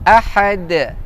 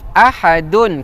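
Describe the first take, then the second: First: The word stops short on the 'd' sound. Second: The word ends with a full 'dun' syllable. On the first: This is the form used when stopping. The speaker calls it right. "kita waqaf ahad" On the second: This is the full form, not used when stopping. The speaker calls it wrong. "tapi kita tak waqaf ahadun"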